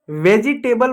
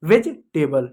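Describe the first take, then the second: First: वेजिटेबल in four syllables, "ve-ji-TAY-bal"; wrong pronunciation. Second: वेजिटेबल as "vej-table", no "ji" syllable; correct pronunciation. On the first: Teacher mimics children's reading, mispronounced with extra syllable. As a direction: sound a full "jee" inside वेजिटेबल. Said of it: "अरे वेजी नहीं होता है". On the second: Teacher shows children the right way, syllable dropped. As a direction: close वेजिटेबल's first part on a short "vej". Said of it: "ये जी silent होता है". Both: Shown as a demonstration.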